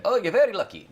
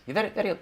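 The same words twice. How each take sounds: First: High, loud Irish leprechaun lilt; a failed stab at a leprechaun accent. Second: Put-on Indian Irish accent. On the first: Pretend. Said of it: "I can't do a leprechaun accent". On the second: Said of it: "that was, like, Indian Irish".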